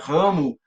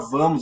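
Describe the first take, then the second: First: The word begins with an R sound. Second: The word begins with a V sound. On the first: "o V virava um R" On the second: "Não era vamos"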